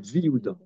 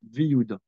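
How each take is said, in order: First: The 'ye' sound is dropped, merging into 'Viouda'. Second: The 'ye' sound is dropped, merging into 'Viouda'.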